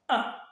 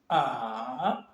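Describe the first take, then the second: First: The pitch falls sharply and briefly. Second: The pitch dips down and rises again. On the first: "il est grave et bref" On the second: "Il descend et il remonte"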